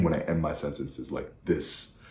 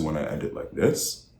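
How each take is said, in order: First: "this" dropped firmly at the end; downward inflection. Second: "this" swung sharply up like a question; upward inflection. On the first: Coach showing powerful endings, downward inflection. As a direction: finish with finality, "this" falling. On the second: Coach showing weak endings, questioning upward inflection. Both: Shown as a demonstration. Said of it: "compared to when I end it like this".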